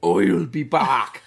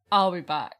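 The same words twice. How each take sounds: First: Slow, loud botched Terminator line, laughing; a failed Arnold that drifts Irish; bad Schwarzenegger. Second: Schwarzenegger impression. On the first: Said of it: "Why is he from Ireland?". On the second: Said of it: "What the fuck was that?".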